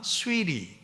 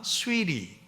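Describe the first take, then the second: First: The middle consonant is a soft R-like flap. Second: The same.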